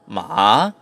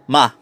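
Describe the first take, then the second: First: The pitch dips down and then rises. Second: The pitch starts high and falls down. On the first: It means horse. "third tone is the falling rising tone" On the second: It means to scold. "fourth tone ... pitch starts high and falls down"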